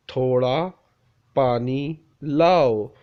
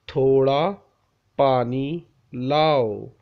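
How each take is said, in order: Both takes have the same delivery.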